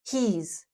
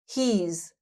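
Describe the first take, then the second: First: The words merge into one short syllable. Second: The words merge into one short syllable.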